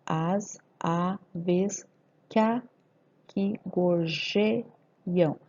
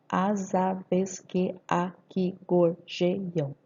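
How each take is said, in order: First: "que aqui" merged as "qua-qui"; very slow, paused syllables with "que a" as one; poetic scansion. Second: "que aqui" kept apart as que-a-qui; slow, every syllable separate in "As aves que aqui gorjeiam"; grammatical syllables. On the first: Teacher scanning poetic syllables, drawn out, "que aqui" elided. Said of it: "sílabas poéticas". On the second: Teacher dividing grammatical syllables, slow with "que aqui" unlinked. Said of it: "Nove sílabas gramaticais". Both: Shown as a demonstration.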